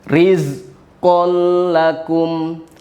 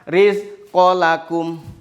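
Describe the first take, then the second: First: The L sound is pressed and held. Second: The L sound is light and not held. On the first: The speaker calls it right. "ditekan, betul, ditekan" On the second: The speaker calls it wrong. "tidak boleh membaca"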